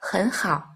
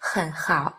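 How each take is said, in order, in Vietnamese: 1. Âm tiết đầu có thanh đi lên. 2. Âm tiết đầu có thanh trầm, uốn xuống. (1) "thanh thứ nhất đọc thành thanh hai" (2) "Khi hai thanh ba đi liền nhau"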